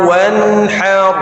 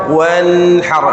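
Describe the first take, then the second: The two takes are said the same way.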